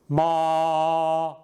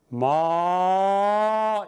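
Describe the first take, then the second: First: The pitch stays high and level throughout. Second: The pitch starts low and rises higher. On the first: "처음부터 끝까지 나란하게 소리가 좀 높게 같습니다" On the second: "처음에는 낮게 하다가 위로 높아지는 모습입니다"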